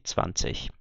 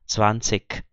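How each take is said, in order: First: Northern standard accent, ending in a soft ich sound. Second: Southern German accent, ending in a hard k sound.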